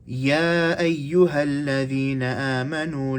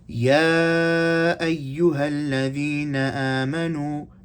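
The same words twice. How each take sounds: First: The recitation is faster with slightly shorter elongations. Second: The recitation is slower with fuller elongations. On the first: "I'm shortening it ever so slightly because my pace is a bit faster" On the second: "that was tawassut"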